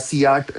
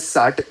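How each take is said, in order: First: The word begins with the letter name 'see'. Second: The word begins with an s sound. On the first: "नहीं बोलूंगा" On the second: "नहीं बोलूंगा"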